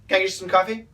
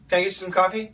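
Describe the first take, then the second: First: The words are fast and run together. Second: The words are fast and run together.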